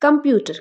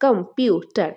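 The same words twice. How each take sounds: First: Said in the usual way. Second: computer split as কম - পিউ - টার; syllable by syllable. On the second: Shown as a demonstration. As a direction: say computer in three separate beats. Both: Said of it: "কয়টা syllable রয়েছে".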